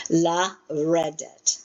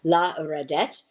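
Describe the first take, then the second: First: La redet very slow, with re stressed, falling at the end. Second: La redet with the last syllable, det, stressed and rising; wrong-syllable stress. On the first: Teacher corrects the accent of la redet, slow stress on re. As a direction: draw out la redet, leaning on re. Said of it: "Re is your accent". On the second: Teacher slips on the accent of la redet, stressing det. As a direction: lean on det at the end of la redet. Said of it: "emphasized the wrong one". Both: Shown as a demonstration.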